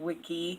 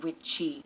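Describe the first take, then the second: First: The middle consonant is a hard k sound. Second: The middle consonant is a ch sound. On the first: The speaker calls it wrong. "I actually mispronounced them" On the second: The speaker calls it right. "it's actually witcha and witchy"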